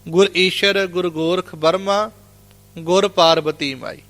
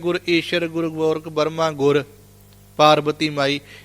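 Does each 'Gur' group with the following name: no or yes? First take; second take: yes; no. First: Pauses group each 'Gur' with the following name. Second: Pauses do not group 'Gur' with each name. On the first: The speaker calls it right. "ਇਹਦੇ ਵਿਸ਼ਰਾਮ ਏਦਾਂ ਲੱਗਣਗੇ" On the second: The speaker calls it wrong. "ਇਹਦਾ ਵਿਸ਼ਰਾਮ ਇਹ ਨਹੀਂ ਲੱਗੇਗਾ"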